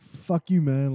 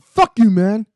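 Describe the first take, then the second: First: It is said with mild anger. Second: It is said with stronger anger.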